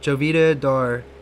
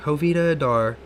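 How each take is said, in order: First: The first name starts with a J sound. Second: The first name starts with an H sound. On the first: The speaker calls it wrong. "I've been fucking pronouncing it wrong" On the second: The speaker calls it right. "Thank you for that"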